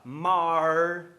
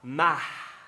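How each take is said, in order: First: It is said in a caipira accent. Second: It is said in a Mineiro accent. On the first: "no sotaque caipira" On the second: "no sotaque mineiro de B H"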